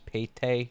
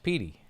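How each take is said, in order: First: The name is said without a final 'ee' sound. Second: The name is said ending in an 'ee' sound. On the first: The speaker calls it wrong. "a lot of the pronunciation from the letters you see from Petey is Pate" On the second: The speaker calls it right. "No, that's not how you say it. It's Petey"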